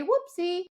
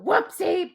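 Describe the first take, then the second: First: High singsong whoopsie; silly whoopsie. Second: High louder whoopsie; a sharper whoopsie with negative energy behind it; mock whoopsie. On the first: Trainer showing a light marker word, high singsong. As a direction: say whoopsie high and bouncy like a harmless oops. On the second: Trainer showing a harsher whoopsie, higher and louder. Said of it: "I guess you could go". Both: Shown as a demonstration.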